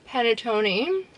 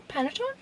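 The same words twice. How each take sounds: First: PANETTONE ending in "toh-nee", questioning rise; unsure pronunciation. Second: PANETTONE ending in "ton", high soft question; doubtful PANETTONE, silent final E, voice lifting; unsure pronunciation. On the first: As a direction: try PANETTONE with a final "ee". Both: Real, not acted. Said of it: "I don't know how you say these things".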